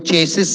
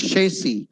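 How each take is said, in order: First: Chassis as "CHAY-sis"; hard ch and sounded final S in chassis; wrong pronunciation. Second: Chassis as "SHAY-see"; soft sh, silent final S in Chassis; correct pronunciation. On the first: Teacher banning this chassis, mispronounced. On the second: Teacher correcting Chassis, correct pronunciation. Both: Shown as a demonstration.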